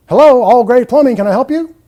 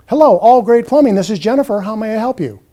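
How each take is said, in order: First: Loud, rushed greeting; unscripted phone answer. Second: Polite receptionist greeting; scripted phone greeting. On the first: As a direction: answer the phone carelessly and loudly. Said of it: "there's no script in place". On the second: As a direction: greet the caller politely by name. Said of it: "A scripted call would sound something like this". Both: Shown as a demonstration.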